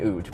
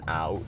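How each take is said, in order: First: The vowel is a pure oo sound. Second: The vowel is a rounded ow sound. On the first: This is the stereotyped Canadian pronunciation. "It's not an oot" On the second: This is how the speaker actually says it. "It's like quite round"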